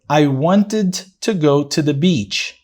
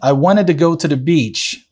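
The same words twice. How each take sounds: First: It is read slowly and calmly, carefully articulated. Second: It is read at a natural, connected speaking pace. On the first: "Eu vou fazer a pronúncia bem tranquila na primeira leitura desse texto" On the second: "Já na segunda, eu vou falar de uma forma mais natural"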